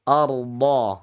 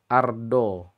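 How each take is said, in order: First: The consonant is pressed with the sides of the tongue. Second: The consonant is pressed with the tip of the tongue. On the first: The speaker calls it right. "Tekan pada sisi kanan dan sisi kiri lidah" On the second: The speaker calls it wrong. "Itu contoh yang salah ya. Karena menitik beratkan di depan lidah"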